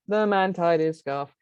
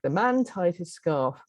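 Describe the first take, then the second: First: The pitch stays nearly flat throughout. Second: The pitch rises and falls naturally.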